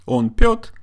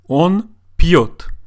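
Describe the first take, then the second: First: The p sound is hard before the vowel. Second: The p sound is softened before the vowel. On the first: It means nothing. The speaker calls it wrong. "it doesn't mean anything" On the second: He drinks. The speaker calls it right. "Он пьет means he drinks or he's drinking"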